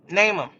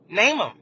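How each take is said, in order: First: It is said in her own normal voice. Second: It is said in a put-on Sutton voice.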